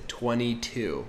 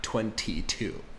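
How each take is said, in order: First: The T after the N is dropped. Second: The T after the N is clearly pronounced. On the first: "So notice she said twenty-two" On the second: "not twenty-two"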